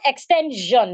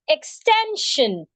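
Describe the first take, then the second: First: The ending is said with a voiced zh sound. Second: The ending is said with a voiceless sh sound. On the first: The speaker calls it wrong. "instead of jeune" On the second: The speaker calls it right. "sounds shin"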